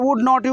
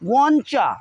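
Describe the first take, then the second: First: All words are said fully and separately. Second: The words run together into one reduced word. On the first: "वुड नॉट यू को" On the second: "बोलेंगे वॉन्चा"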